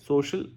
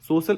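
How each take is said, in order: First: The middle consonant is an sh sound. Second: The middle consonant is a plain s sound. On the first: It shows no mother tongue influence. The speaker calls it right. "सोशल एम नहीं है" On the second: It shows mother tongue influence. The speaker calls it wrong. "सोशल एम है"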